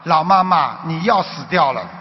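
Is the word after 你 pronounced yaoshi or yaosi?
yaosi. It has Shanghai-accented Mandarin with a flat si sound. You are going to die. The speaker calls it wrong. "他国语不好"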